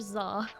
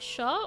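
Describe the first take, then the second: First: The name begins with a z sound. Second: The name begins with an sh sound. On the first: "a X Z sound" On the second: "an S H sound"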